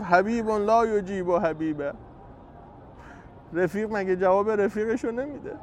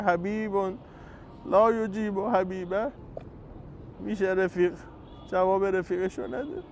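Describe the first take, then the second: First: A loving complaint to a friend, slowed; tender reproach. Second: Soft, loving complaint, slowed on لا یجیب; tender reproach. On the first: Acted. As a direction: gently chide a beloved friend who won't answer. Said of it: "با لحن محبت، گلایه". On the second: Shown as a demonstration. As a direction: plead gently like a hurt friend. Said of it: "ما هم باید به امام حسین بگیم".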